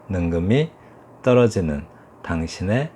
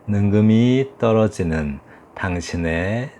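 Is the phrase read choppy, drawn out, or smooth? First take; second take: choppy; smooth. First: Each word is cut off short and separate. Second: The words flow smoothly together without breaks. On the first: "톡톡 끊어서 읽는 것이 이제 스타카토식" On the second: "이렇게 이어지듯이 부드럽게"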